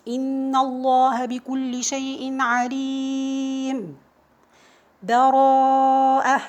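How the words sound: A full stop with a breath between phrases.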